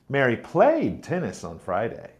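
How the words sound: The word played is stressed. She played rather than watched. "Mary played tennis, not watched"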